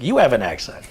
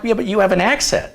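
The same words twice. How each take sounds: First: Australian retort, lightly mimicked; imitated Australian accent. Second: Said in the usual way. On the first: Visiting girl turns it round on the teller, imitated Australian accent. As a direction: fire back in a mock Australian accent. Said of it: "And she's like". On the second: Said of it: "I'm like".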